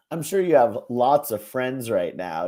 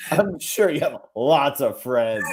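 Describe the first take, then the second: First: Said in the usual way. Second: Sarcastic. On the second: Shown as a demonstration. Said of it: "could have been total sarcasm".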